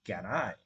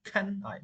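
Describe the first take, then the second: First: Can I with a g-like k, pitched lower; lower-pitched can I, k unaspirated; wrong soft k. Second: Can I with a puffed k, pitched high; higher-pitched Can I, k strongly released; correct aspirated k. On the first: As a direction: say can as "gan", no puff of air. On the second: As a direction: push breath behind the k of Can. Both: Shown as a demonstration.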